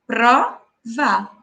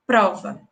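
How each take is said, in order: First: "prova" pausada, pro-va, sílaba por sílaba; said slowly in syllables. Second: Said in the usual way. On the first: Shown as a demonstration. ("prova" dita devagar, separando as sílabas) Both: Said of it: "pronunciar a palavra de forma pausada".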